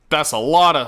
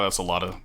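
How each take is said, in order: First: LOT said louder and higher, falling; stunned stress on "lot"; amazed emphasis. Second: Said in the usual way. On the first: Real, not acted. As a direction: lean hard on "lot", stretching it in awe. Overwhelmed by game controls.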